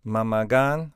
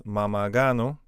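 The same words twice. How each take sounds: First: "Mamagan" ending on n, no o; base plural form. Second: "Mamagano" with "oh" after the n; o added at end. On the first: Teacher giving the word for uncles, uninflected "Mamagan". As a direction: say "Mamagan" closed on its final n. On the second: Teacher showing what uncles becomes, o-ended "Mamagano". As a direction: finish "Mamagano" on an o. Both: Shown as a demonstration. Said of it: "We just add a o".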